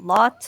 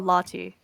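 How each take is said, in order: First: The name is said with one syllable. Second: The name is said with two syllables. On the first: "one syllable" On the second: "versus two"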